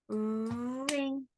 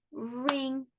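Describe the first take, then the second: First: "Ring" as one beat with a held r; one drawn-out syllable. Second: Said in the usual way. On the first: Shown as a demonstration. Teacher shows one syllable, "Ring" held long. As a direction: stretch the opening r of "Ring". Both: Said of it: "That one just has one".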